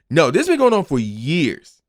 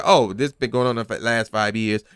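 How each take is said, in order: First: "been" pressed firmly; "No, this been going on for years" with weight on "been"; stress on been. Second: Said in the usual way. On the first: Shown as a demonstration. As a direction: lean into "been" to correct the record. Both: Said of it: "It's not like".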